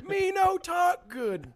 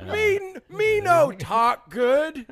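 First: A hint of dumb caveman voice; caveman talk. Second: Slow, high dumb caveman voice; caveman talk. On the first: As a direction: say it again, slow and broken. Repeat of caveman line. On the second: Pretend. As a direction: play dumb, slow and broken. Mocking own bad speech.

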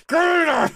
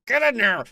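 First: Higher and louder, pushing hard; frustrated shout. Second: Said in the usual way. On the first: Real, not acted. Player yelling at the dog in the game, frustrated shout. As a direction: yell it at the stubborn dog.

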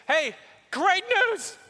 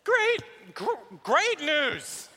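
First: Excited announcement. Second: Bigger excited announcement. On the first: David bursts in announcing. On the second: David restarts his announcement. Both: Acted.

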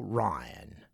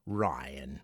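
First: Said in the usual way. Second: Lower, softer breathy echo of "Ryan"; whispered name. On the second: Shown as a demonstration.

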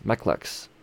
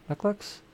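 First: Said in the usual way. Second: Much higher, quizzical Mech Lex? tried out; testing the name Mech Lex? with a lifted questioning tune; unsure rising question. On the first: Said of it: "Lexi, Mech Lex". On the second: Shown as a demonstration. Vlogger trying out a silly nickname, doubtful rising question. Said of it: "What's what I'm gonna call him?".

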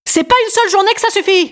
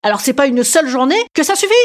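First: High, shouted rally slogan; pitched-up mock political shout; proclaimed slogan. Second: Said in the usual way. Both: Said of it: "je l'ai trouvé, mon slogan".

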